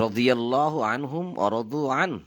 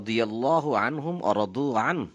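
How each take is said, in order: Both takes have the same delivery.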